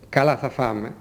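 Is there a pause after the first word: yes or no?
no. The phrase runs on without any pause. The first word describes how the eating will go. "Στα άλλα δεν ακολουθεί μετά το «καλά» παύση. Η φωνή είναι συνεχόμενη"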